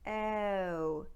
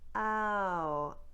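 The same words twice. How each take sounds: First: The diphthong starts with a smaller eh sound. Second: The diphthong starts with an open ah sound. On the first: "What they do in Newfoundland is instead of starting with ah, they start with eh" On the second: "In standard American speech, the ow diphthong starts with ah"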